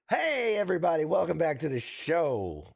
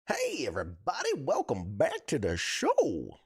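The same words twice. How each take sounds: First: It is said in a plain everyday voice. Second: It is said in a put-on announcer voice. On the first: "I think this is my normal speaking voice" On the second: "thinking like I'm a character"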